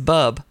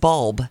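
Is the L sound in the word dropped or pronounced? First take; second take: dropped; pronounced. First: The L sound before the final B is dropped. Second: The L sound before the final B is pronounced. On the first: The speaker calls it wrong. "And he says bub" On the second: The speaker calls it right. "But the word is bulb"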